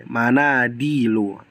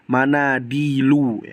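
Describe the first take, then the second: No difference in how they are said.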